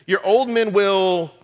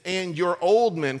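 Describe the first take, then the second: First: Put-on old slowed and punched, louder; stress on old. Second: Said in the usual way. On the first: Shown as a demonstration. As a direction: lean hard on the word old in "your old men will".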